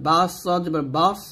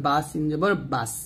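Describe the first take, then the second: First: বাস with a thick, dark s and rounded vowel, like "baws"; wrong heavy sad. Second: বাস with a light, thin s and open a; thin sin. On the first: Teacher showing the forbidden reading, heavy sad in বাস. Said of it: "পড়া যাবে না". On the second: Teacher showing the required reading, thin light sin in বাস. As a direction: spell out বা সিন জবর বাস with a thin sin. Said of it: "পাতলা করে সিনের উচ্চারণ করতে হবে". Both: Shown as a demonstration.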